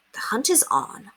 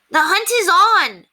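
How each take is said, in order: First: Said in the usual way. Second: High, loud, slow cry; wild cry. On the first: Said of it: "What a thing for her to say". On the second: Acted. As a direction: cry it out like a hunting call. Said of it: "the incorrigibles cried".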